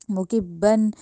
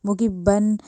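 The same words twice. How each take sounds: The two takes are said the same way.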